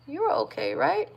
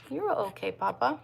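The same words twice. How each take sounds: First: Higher, gentle reassuring coo. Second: Softer, murmured reassurance; soft soothing. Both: Real, not acted. Soothing her newborn.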